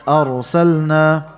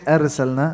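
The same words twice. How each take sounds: First: The r sound is heavy and full. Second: The r sound is light and thin. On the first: The speaker calls it right. "Full mouth or heavy" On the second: The speaker calls it wrong. "So you don't say arsalna"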